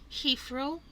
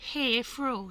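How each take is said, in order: First: The first syllable sounds like English 'heath'. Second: The first syllable sounds like Cantonese 'hea'. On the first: The speaker calls it right. "of course, it is pronounced Heathrow" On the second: The speaker calls it wrong. "my classmates pronounce this as Heathrow"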